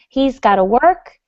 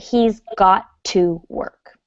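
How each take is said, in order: First: 'Got to' is run together like 'gotta'. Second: 'Got to' is said as two separate words.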